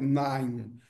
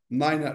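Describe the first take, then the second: First: The number is said with one syllable. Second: The number is said with two syllables. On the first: This is the everyday form. The speaker calls it wrong. "no coloquial" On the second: This is the form used in radio communication. The speaker calls it right. "o nove niner"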